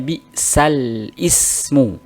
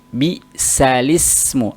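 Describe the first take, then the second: First: A glottal stop separates sal from ismu. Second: The l runs straight into i without a stop. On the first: The hamzah keeps its own vowel as in the base form. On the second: The hamzah's vowel has moved onto the lam. "Maka jadi li"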